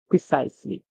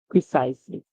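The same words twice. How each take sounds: First: The middle consonant is a buzzing Z sound. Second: The middle consonant is a buzzing Z sound.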